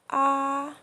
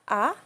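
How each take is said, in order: First: The pitch stays high and flat. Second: The pitch rises from middle to high. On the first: "keep our voice at very high pitch and flat" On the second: "rising tone"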